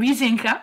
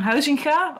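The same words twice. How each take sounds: First: The name is pronounced with French sounds. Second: The name is pronounced with Dutch sounds.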